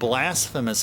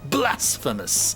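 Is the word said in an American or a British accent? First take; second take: American; British. First: It is said in a plain American accent. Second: It is said in a mock British accent. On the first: "my normal American accent" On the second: "quasi, uh, like British accent just to give it emphasis"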